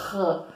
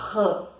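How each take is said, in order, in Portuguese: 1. O som raspa e vibra na garganta. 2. O som raspa e vibra na garganta.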